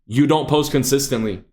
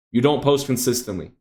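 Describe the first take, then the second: No difference in how they are said.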